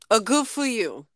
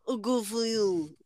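First: It is said in a Beetlejuice impression. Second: It is said in a Godfather impression.

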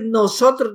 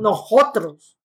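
First: The s is a clear standard s sound. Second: The s sounds like a breathy h, Salvadoran style.

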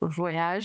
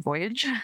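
First: The word is said with a French pronunciation. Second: The word is said with an English pronunciation. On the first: The speaker calls it right. "I'm assuming it's pronounced Voyage" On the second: The speaker calls it wrong. "and not Voyage"

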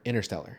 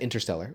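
First: The t in the middle is dropped. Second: The t in the middle is pronounced. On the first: The speaker calls it wrong. "but there's a T" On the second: The speaker calls it right. "which is right"

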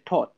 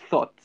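First: The word is said in a Nigerian accent. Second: The word is said in a plain accent. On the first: This is how some Nigerian speakers say it. "As my Nigerian brothers say, they say thought" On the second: This is the way it is not said by those speakers. "not thought"

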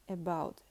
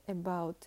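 The two takes are said the same way.

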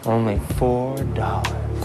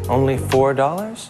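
First: It is said in a sexier voice. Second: It is said in a sexy voice.

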